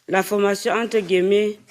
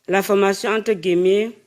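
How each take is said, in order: Both takes have the same delivery.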